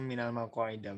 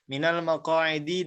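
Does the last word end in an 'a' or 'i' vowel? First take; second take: a; i. First: The last word ends with an 'a' vowel. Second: The last word ends with an 'i' vowel. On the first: The speaker calls it wrong. "Tadi antum minal maqaida bacanya" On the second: The speaker calls it right. "di ya"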